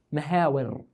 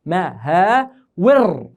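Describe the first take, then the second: First: Said in the usual way. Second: "مهاور" very slow, split as ma-haa-wir; syllable-by-syllable pronunciation. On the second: Shown as a demonstration. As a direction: stretch "مهاور" into separate long syllables. (نطق "مهاور" ببطء مقطعًا مقطعًا) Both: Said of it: "كيف بدها تصير نطقها".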